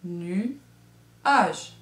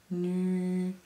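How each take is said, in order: First: "Nuage" as two separate beats, nu, age; teacher clapping out "Nuage" syllable by syllable; split into syllables. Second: "Nuage" slowly, nu... a-jjjj, ending on a long buzz; stretched final J. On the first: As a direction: pause in the middle of "Nuage", after "nu". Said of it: "dans la première syllabe ou". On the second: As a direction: hold the last "ge" sound of "Nuage". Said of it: "dans la deuxième qu'on entend". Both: Shown as a demonstration.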